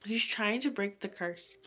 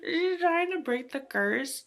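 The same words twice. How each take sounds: First: Said in the usual way. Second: Higher and slower; eager storyteller; excited. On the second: Shown as a demonstration. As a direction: lean in, thrilled by the plot.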